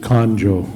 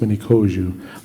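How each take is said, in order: First: The middle has an 'n' sound before the 'j'. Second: The middle has no 'n' sound before the 'j'. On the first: The speaker calls it wrong. "people pronounce it Conjo" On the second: The speaker calls it right. "it's uh, pronounced Minikoju"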